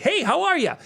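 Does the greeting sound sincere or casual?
casual. It sounds casual and offhand.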